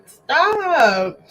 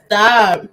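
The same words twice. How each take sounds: First: "Stop" said higher and drawn out; emphatic stop. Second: Said in the usual way. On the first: Real, not acted. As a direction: stretch "Stop" up high, insisting.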